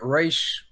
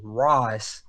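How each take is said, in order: First: The name ends in a 'sh' sound. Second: The name ends in an 's' sound. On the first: The speaker calls it wrong. "I said that wrong" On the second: The speaker calls it right. "it's actually Ra's Al Ghul, not Raish"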